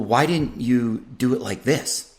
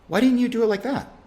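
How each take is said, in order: First: The question is asked in a judgmental tone. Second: The question is asked in an open, curious tone. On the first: The asker already disapproves of the choice. The speaker calls it wrong. "see how my tone is subtle, and it's it's I'm leading with judgment" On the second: The asker genuinely wants to understand the choice. The speaker calls it right. "a little less judgment there. I'm it's much more of an open-ended question"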